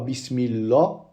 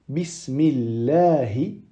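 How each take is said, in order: First: The word ends on a consonant, no final vowel. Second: The word ends with a short final i vowel. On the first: The speaker calls it wrong. "On ne dit pas Bismillah" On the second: The speaker calls it right. "Non. Bismillahi"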